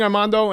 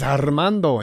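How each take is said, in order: First: The R is said plain, without a roll. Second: The R is said with a strong roll. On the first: The speaker calls it wrong. "Get it right, fool. Because that's not my name" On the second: The speaker calls it right. "if you didn't roll the R's, he corrected you"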